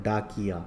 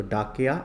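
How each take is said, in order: First: Said in the usual way. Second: डाकया with no short i after क; डाकया, an a-sound where the i belongs; misspelt reading. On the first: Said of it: "क्या होता है?". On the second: Shown as a demonstration. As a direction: say डाकया as written without the i vowel. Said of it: "तो डाकया नहीं होता".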